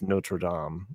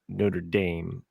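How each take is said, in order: First: It is said with a French pronunciation. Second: It is said with an Americanized pronunciation. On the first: This is how the name really is. The speaker calls it right. "when it's Notre Dame" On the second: This is how people commonly say it. The speaker calls it wrong. "everybody says Notre Dame"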